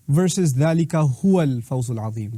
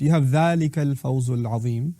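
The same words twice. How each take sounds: First: هو given weight in ذلك هو الفوز العظيم; emphatic huwa. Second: Said in the usual way. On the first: Shown as a demonstration. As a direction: lean on هو to add emphasis. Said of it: "adds an emphatic tone". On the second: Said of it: "There's an additional huwa".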